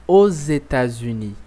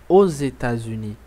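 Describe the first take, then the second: No difference in how they are said.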